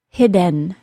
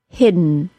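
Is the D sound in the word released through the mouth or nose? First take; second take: mouth; nose. First: The D is released through the mouth. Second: The D is released through the nose. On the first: "I'm going to say the word hidden without the nasal plosion" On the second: "then with it"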